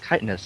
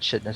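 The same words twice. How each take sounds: First: The word begins with a k sound. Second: The word begins with a ch sound. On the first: The speaker calls it right. "it's chitinous, isn't it?" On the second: The speaker calls it wrong. "not chitinous"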